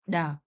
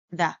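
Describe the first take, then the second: First: "the" with a hard d in place of th; Vietnamese-style th. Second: Tongue between the teeth to start "the"; correct th. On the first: Teacher showing Vietnamese learners' substitution, mispronounced "the". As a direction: say "the" as "duh". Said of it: "it's pronounced like". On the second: Teacher correcting the substitution, properly pronounced "the". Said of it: "instead of". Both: Shown as a demonstration.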